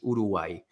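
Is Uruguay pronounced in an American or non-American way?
non-American. The name is said with a non-American pronunciation. The speaker calls it right. "It's Uruguay"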